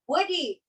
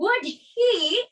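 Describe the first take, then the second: First: The words run together as one reduced word. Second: Each word is said separately and clearly.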